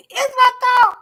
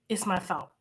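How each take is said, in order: First: Much higher and louder, laughing; high loud laughing exclamation; laughing outburst. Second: Said in the usual way. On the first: Real, not acted. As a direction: blurt it out through a laugh. Repeats thought, then bursts out.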